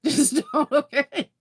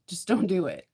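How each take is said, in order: First: Higher, louder, laughing; laughing final warning; laughing plea. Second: Said in the usual way. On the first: Real, not acted. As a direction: giggle a firm don't.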